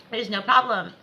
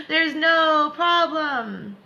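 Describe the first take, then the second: First: Said in the usual way. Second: Very slow, high and loud; slow high reassurance. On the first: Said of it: "repeated plainly". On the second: Shown as a demonstration. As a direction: stretch out each word reassuringly. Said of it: "repeated plainly after".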